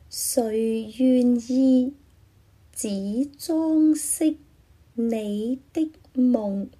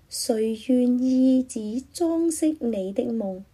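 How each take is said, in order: First: The sentence is read slowly. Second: The sentence is read at normal speed.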